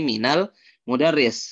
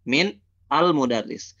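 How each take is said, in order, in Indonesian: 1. Min menyambung ke kata berikutnya dengan vokal tambahan. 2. Ada henti setelah min. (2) "kalau dibacanya min, antum stop"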